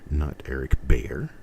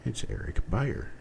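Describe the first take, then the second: First: The first vowel does not sound like 'buy'. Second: The name sounds just like 'buyer'. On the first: The speaker calls it wrong. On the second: The speaker calls it right. "Buyer, just like a buyer, someone who buys"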